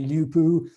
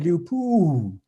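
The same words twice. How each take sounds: First: The pitch stays level without rising and falling. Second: The pitch rises and then falls on the accent. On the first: The speaker calls it wrong. "they didn't say lupu" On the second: The speaker calls it right. "they said lupu"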